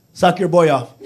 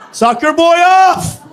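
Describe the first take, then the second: First: Said in the usual way. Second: Loud, slow, high declaration; slow shouted rallying call; shouted punchline. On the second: Acted. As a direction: hammer the punchline home.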